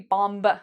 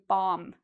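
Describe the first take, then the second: First: The final B sound is pronounced. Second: The final B sound is silent. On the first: The speaker calls it wrong. "So we don't say bomb" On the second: The speaker calls it right. "we say bomb"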